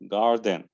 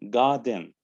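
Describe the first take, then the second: First: The r after the vowel is pronounced. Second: The r after the vowel is dropped. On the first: "then American" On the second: "British first"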